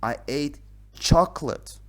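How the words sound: The stress is on the word chocolate.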